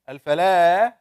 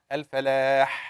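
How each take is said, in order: First: The h sound is weak and light. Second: The h sound has audible throat friction. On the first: It means desert or empty land. The speaker calls it wrong. "it's a very weak ha" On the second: It means success. The speaker calls it right. "with this little friction"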